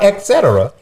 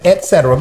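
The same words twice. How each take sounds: First: It has a K sound before cetera. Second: It has no K sound before cetera. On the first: The speaker calls it wrong. "it is not et cetera" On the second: The speaker calls it right. "It is et cetera. ... there's no K in et cetera"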